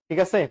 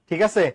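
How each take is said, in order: No difference in how they are said.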